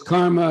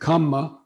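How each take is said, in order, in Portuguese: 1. Ouve-se um som de r antes do m. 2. Não há som de r; em vez disso, um m longo e duplo. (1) "karma is the Sanskrit uh, pronunciation" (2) "kamma, which is the Pali pronunciation"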